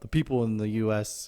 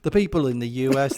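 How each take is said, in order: First: It is said in the speaker's ordinary accent. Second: It is said in a put-on English accent.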